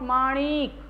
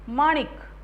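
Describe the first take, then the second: First: The vowel after ण is long. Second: The vowel after ण is short. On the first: The speaker calls it wrong. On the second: The speaker calls it right.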